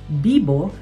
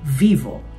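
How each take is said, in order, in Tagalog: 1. Ang unang katinig ay parang B. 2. Ang unang katinig ay parang V. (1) "ang letter V ay pinopronounce bilang B sa Espanyol" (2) "hindi vivo"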